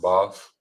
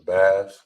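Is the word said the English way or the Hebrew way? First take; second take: Hebrew; English. First: The word is said with Hebrew sounds. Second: The word is said with English sounds. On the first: The speaker calls it right. "it's pronounced as Bath" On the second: The speaker calls it wrong. "this is not pronounced as Bath"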